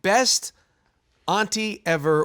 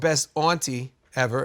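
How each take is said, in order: First: Auntie is said in a plain, general accent. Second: Auntie is said in a Massachusetts accent.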